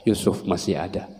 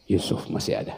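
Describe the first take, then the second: First: Soft, low-level assurance; a softer line with a touch of grief; quiet. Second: Breathy whisper of Yusuf masih ada. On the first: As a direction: say it softly to yourself. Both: Acted.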